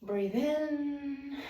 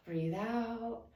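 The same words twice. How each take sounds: First: Guided breath cue. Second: Softer falling cue to exhale; guided breath cue. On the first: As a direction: lift the voice gently on "in". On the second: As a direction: let the voice sink gently on "out". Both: Shown as a demonstration.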